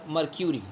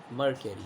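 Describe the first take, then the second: First: "mercury" said with a "kyoo" in the middle; mer-kyoo-ree pronunciation. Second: "mercury" said MER-kuh-ree, no y glide; mer-kuh-ree pronunciation. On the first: Teacher offering the alternative, "mercury" pronounced mer-kyoo-ree. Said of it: "they pronounce it as mercury or mercury". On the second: Teacher naming the liquid metal, "mercury" pronounced mer-kuh-ree. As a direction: say "mercury" without a "kyu" in the middle. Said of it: "Both pronunciations are acceptable and correct". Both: Shown as a demonstration.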